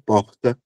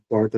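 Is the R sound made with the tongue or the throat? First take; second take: throat; tongue. First: The R is made in the throat, like an H. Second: The R is made by curling the tongue back. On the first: "glotal no segundo" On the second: "Retroflexo no primeiro"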